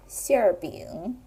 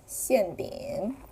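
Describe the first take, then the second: First: The first syllable ends with an r-sound. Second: The first syllable ends without an r-sound. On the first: "northern accent" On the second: "southern accent"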